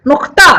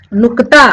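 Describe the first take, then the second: First: नुक्ता as "nuqta", k moved into the throat; nukta pronunciation. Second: Said in the usual way. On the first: Shown as a demonstration. Teacher offering the alternative, नुक्ता with throaty middle. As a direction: make the क in नुक्ता a guttural scrape. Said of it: "या फिर नुक्ता". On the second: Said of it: "या फिर".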